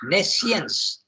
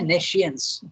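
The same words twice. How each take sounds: First: The middle consonant is a plain s sound. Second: The middle consonant is an sh sound. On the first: "And you need not say sh" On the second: "But some people say nescience"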